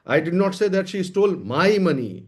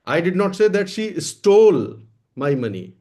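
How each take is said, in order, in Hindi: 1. ज़ोर 'my' शब्द पर है। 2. ज़ोर 'stole' शब्द पर है। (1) "लेकिन मेरा पैसा नहीं चुराया है।" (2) "मैंने ये नहीं कहा कि उसने चुराया है, ले लिया है, मांग लिया है, चुराया नहीं है।"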